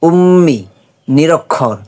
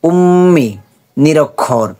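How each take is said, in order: Both takes have the same delivery.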